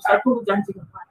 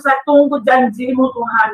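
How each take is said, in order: First: Low, soft prayer to oneself; inward prayer. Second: Said in the usual way. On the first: Retold or imitated. Patient silently telling God she waits, inward prayer. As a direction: say it quietly, as if inside the heart. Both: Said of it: "Dalam hati dia bikin itu".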